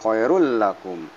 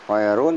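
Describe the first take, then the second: First: The n sound merges into the following l. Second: The final n sound is pronounced clearly. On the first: The speaker calls it right. "tapi khairul lakum" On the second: The speaker calls it wrong. "bukan khairun"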